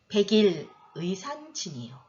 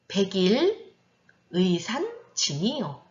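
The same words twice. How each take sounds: First: The line is read at a faster pace. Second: The line is read at a slower pace.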